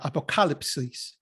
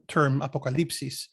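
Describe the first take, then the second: First: The word is pronounced the Greek way. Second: The word is pronounced the Spanish way. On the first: The speaker calls it right. "but the Greek term is, I believe, is uh" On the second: The speaker calls it wrong. "I've been pronouncing this incorrectly because I keep thinking of the Spanish uh, term"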